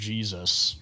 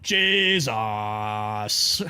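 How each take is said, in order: First: It is said in the speaker's plain accent. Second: It is said in the priest's thick Irish accent.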